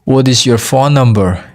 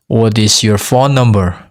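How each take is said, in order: Both takes have the same delivery.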